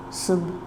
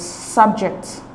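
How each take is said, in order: First: "subject" slowly split as sub, then ject, verb stress on second syllable. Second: "subject" stressed on SUB, the first syllable, falling away; noun stress. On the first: Teacher writing out the verb for students, "subject" broken into syllables. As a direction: say "subject" quietly in two separated syllables, as a verb. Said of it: "The word subject is a verb". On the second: Teacher contrasting the noun with the verb, "subject" stressed on SUB. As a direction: hit the first syllable of "subject", open vowel, no schwa. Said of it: "different from the noun version".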